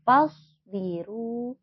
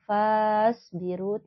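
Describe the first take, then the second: First: The vowel after the f is kept short. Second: The vowel after the f is drawn long. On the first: The speaker calls it right. "tidak dibaca panjang" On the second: The speaker calls it wrong. "dibacanya tidak islauha fas biru"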